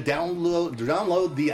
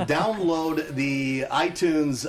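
First: "download" fumbled and restarted in a hurry; false start on "download", tongue-tied; stumbled delivery. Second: Slow, loud, deliberate "download"; "download" drawn out clearly and firmly; careful restart. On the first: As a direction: trip over "download". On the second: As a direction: enunciate "download" after a slip. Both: Real, not acted. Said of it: "Take my speaking course".

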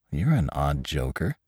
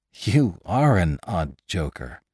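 First: Softer, lower, questioning lilt; puzzled remark with a rising end. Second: Slow, spaced-out words, falling end; awkward. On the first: Attendant to Lantry who claims he's dead, puzzled. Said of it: "The attendant was puzzled". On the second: Attendant to Lantry talking of killing, awkward. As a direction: draw it out, mildly uneasy. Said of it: "The man giggled awkwardly". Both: A narrator's reading.

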